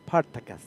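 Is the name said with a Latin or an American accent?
Latin. It is said with a Latin accent.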